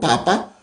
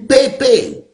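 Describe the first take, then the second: First: The vowels sound like 'ah'. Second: The vowels sound like 'ay'. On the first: "they didn't pronounce it as R" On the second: "If it is A, let's pronounce it as A"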